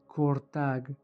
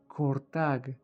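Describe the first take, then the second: First: It is said with an r before t. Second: It is said with an r before t.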